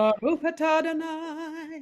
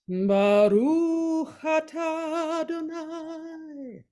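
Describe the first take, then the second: First: It is said at a quicker pace. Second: It is said slowly, each word weighted.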